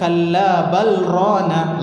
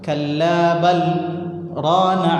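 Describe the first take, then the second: First: 'Bal' runs straight into 'rana' with no pause. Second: There is a brief pause after 'bal'. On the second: "saktah, diam. Diam sebentar di situ"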